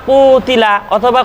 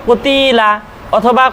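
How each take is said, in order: Both takes have the same delivery.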